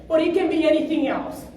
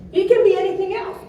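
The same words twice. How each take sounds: First: Said in the usual way. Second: Faster, more insistent repeat; emphatic repeat. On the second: Real, not acted. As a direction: drive the point home.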